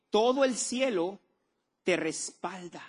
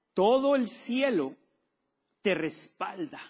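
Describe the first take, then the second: First: High, slow, lingering on todo el cielo; repeated emphatic declaration. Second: High and slow, each word weighed; slow emphatic declaration. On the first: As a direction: say it again, slowly, to make it land. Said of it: "¿Oíste lo que dije? Dije". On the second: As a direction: proclaim it slowly. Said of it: "¿Oíste lo que dije?". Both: Acted.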